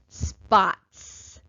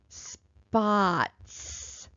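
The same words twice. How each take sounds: First: The word is said at a quick pace. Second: The word is said a little faster. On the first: "a little faster" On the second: "a little faster"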